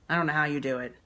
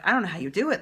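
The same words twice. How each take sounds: First: It sounds pitying, as if the task is awful. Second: It sounds admiring, like praising a superhero.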